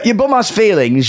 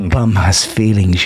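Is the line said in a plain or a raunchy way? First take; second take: plain; raunchy. First: It is said in a plain, ordinary manner. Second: It is said in a sultry, raunchy manner.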